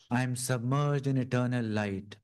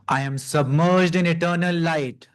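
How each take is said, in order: First: It is spoken at ordinary conversational volume. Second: It is spoken loudly, projected outward. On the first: It goes deeper than the conscious mind. "then go deeper as we speak in the normal voice" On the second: It is addressed to the conscious mind. "We will speak out loud to our conscious mind"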